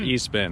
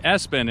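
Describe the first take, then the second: First: The name begins with an 'ee' sound. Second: The name begins with an 'ess' sound. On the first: The speaker calls it wrong. "not E-spin" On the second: The speaker calls it right. "S-spin is the correct way to say it"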